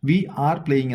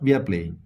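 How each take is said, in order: First: We are is said as two full words. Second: We are is shortened into one syllable. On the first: The speaker calls it wrong. "എന്നല്ല" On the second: The speaker calls it right. "എന്നാ പറയാ"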